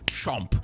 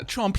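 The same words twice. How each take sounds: First: It is said in a firm, serious, literal way. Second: It is said in a light, playful, joking way. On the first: It is meant literally. "I mean chomp" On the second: It is only a joke. "I don't say that as uh, chomp, hee hee hee"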